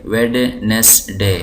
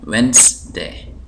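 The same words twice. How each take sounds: First: वेडनेसडे slowly in three parts, D sounded; misread pronunciation. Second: वेंसडे in two parts, D silent; correct pronunciation. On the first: Teacher showing a learner's misreading, वेडनेसडे with every letter sounded. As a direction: read वेडनेसडे as spelt, wed-nes-day. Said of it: "नहीं सुनेंगे किसी अंग्रेज़ को बोलते हुए". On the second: Teacher showing how English speakers read it, वेंसडे with silent D. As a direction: say वेंसडे as WENZ-day. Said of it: "इसको हम पढ़ते हैं". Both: Shown as a demonstration.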